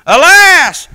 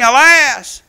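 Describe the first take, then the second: First: Alas cried out much louder and higher; loud wail. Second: Slow, mournful cry of alas; drawn-out lament. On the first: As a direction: throw the second alas out as a loud wailing cry. Lament repeated louder. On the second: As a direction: stretch the word Alas out slowly like a lament. Lament quoted from scripture. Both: Acted.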